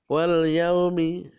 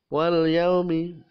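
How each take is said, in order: The two takes are said the same way.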